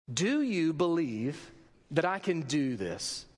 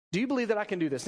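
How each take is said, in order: First: Slow, weighty question with a pause after believe; slow, solemn question. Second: Said in the usual way. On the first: Retold or imitated. Jesus questioning two blind men, slow solemn question. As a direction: ask it gravely, word by word.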